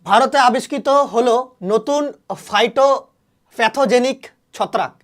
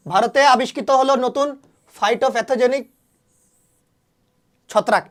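First: Slow, spelled-out headline with ফাইটোপ্যাথোজেনিক drawn out very slowly; slow dictation. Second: Said in the usual way. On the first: Shown as a demonstration. Teacher dictating an exam fact to students, slow and deliberate. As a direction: read it slowly so students can write it down. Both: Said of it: "এটা পরীক্ষায় কিন্তু আসবে".

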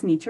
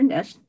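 First: "niche" with a long ee vowel; first pronunciation. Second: "niche" with a short i vowel; second pronunciation. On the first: Speaker comparing two ways to say it, "niche" with long ee. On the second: Speaker comparing two ways to say it, "niche" with short i. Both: Shown as a demonstration. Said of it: "whether it's niche or niche".

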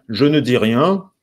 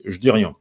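First: Slow "je ne dis rien", every word sounded; full negation. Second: "je dis rien" as "j'dis rien"; elided form. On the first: Teacher showing what is not said, full slow "je ne dis rien". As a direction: sound "je" and "ne" fully and separately. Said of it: "En fait, ce n'est pas". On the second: Teacher showing the elision, "je dis" as "j'dis". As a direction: drop the schwa, "je dis" in one syllable. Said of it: "l'élision avec". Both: Shown as a demonstration.

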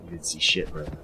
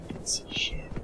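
First: Said in the usual way. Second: Breathy unvoiced whisper. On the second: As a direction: hiss it like a secret threat. Whispered retake of line 48.

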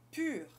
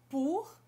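First: "pur" with lips rounded, tongue forward; "pur" like "ee" through round lips; French u. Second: "pour" with back rounded "oo"; "pour" with the ou sound; French ou. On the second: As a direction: say "pour" like "poor". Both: Shown as a demonstration. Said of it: "por exemplo".

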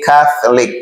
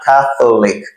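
First: CATHOLIC with a reduced middle, CATH-LIC; correct model pronunciation. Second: CATHOLIC with a full O, CATH-O-LIC; mispronunciation to avoid. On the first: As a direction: squeeze the O out of CATHOLIC. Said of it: "We say Catholic". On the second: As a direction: sound the middle O in CATHOLIC. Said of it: "not Catholic". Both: Shown as a demonstration.

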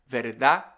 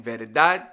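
First: "verdad" said as "verdá", no closing D; dropped final D. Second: Said in the usual way. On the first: Shown as a demonstration. Teacher repeating the contrast, dropped final D. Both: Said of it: "We don't say the D's".

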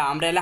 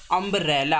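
First: Said in the usual way. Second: "अम्ब्रेला" split as अम्ब-रेला, first vowel clear; sound demonstration. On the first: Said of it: "अम्ब्रेला हमने पढ़ा था". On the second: Shown as a demonstration. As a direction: sound out "अम्ब्रेला" in parts to show its opening vowel. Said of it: "यू का sound आ रहा है". ("अम्ब्रेला" को तोड़कर, पहला स्वर साफ़ बोलते हुए)

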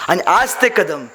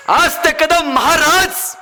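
First: Said in the usual way. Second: Slow rising suspense on कदम; slow dramatic. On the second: Acted. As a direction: stretch each word for suspense. Repeated dramatic phrase.

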